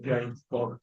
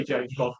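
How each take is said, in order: First: James Bond in a light Scottish Bond accent; a quick Connery-style James Bond. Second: Said in the usual way. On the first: Shown as a demonstration. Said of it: "Like that".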